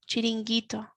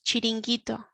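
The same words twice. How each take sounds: No difference in how they are said.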